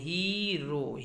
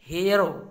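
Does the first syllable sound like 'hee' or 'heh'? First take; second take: hee; heh. First: The first vowel is a long 'ee' sound. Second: The first vowel is a short 'eh' sound. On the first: The speaker calls it wrong. "कुछ लोग इसको हीरो पढ़ते हैं, हीरो नहीं होता है मित्रों" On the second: The speaker calls it right. "ये इसका प्रोनाउंसिएशन है"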